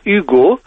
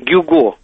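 First: The name begins with a vowel sound. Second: The name begins with a g sound. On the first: This is how the name sounds in French. The speaker calls it right. "Вот именно так, оно произносится по-французски" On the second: This is not how the name sounds in French. The speaker calls it wrong. "а не"

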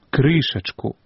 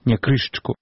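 First: Every vowel is pronounced in full. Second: An unstressed vowel is dropped, shortening the word. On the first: The speaker calls it right. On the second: The speaker calls it wrong.

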